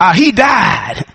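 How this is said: It is said in an old-time preacher style.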